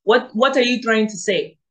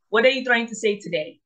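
First: A light attempt at an African accent; playful African accent, first go. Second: Put-on quicker African accent take; second, faster go at an African accent. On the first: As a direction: try on an African accent, a bit louder. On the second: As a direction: rattle it off fast in an African accent. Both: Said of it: "let me see if I can do my African accent".

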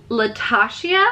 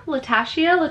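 First: "Latasha" with a broad AH in the middle; unsure pronunciation. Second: "Latasha" with a short A as in cat; alternative pronunciation. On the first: Reading a gift giver's "Latasha", unsure, la-TAH-shee-uh. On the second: Second guess at gift giver's "Latasha", short A, la-TASH-ee-uh. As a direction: try "Latasha" as la-TASH-ee-uh, higher. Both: Shown as a demonstration. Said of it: "I hope I'm pronouncing your name correctly".

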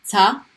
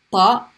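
First: Plain light ta. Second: Ta heavy, tongue pushed up; emphatic heavy Ta. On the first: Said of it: "light T". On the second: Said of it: "heavy T". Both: Shown as a demonstration.

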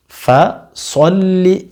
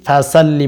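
First: ফাসল্লি with short first vowel, slow and drawn out; correct pronunciation. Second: ফাসাল্লি with an added a after স; wrong pronunciation. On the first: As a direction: say ফাসল্লি slowly, no long a after স. (ফাসল্লি ধীরে, স-এর পরে দীর্ঘ আ ছাড়া) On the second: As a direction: show the mistake ফাসাল্লি spoken quickly. (ভুল উচ্চারণ ফাসাল্লি, স-এর পরে আ যোগ করে) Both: Shown as a demonstration. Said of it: "ফাসাল্লি বলবেন না".

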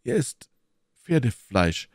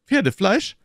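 First: "Pferdefleisch" stated soberly with a falling end; pause, then reveal it in earnest; serious, measured verdict; grave announcement. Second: High, loud, rising "Pferdefleisch?"; revolted, incredulous query; disgusted question. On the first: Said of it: "entgegnete Athos ernst". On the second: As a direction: ask it in appalled disbelief. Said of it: "fragte Aramis mit einer Grimasse des Ekels". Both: A narrator's reading.

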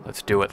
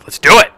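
First: Low hushed resolve; softly psyching up; quiet. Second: Higher louder pumped-up cry; rising battle cheer; hyped. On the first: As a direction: mutter it to yourself. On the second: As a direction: fire yourself up. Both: Real, not acted.

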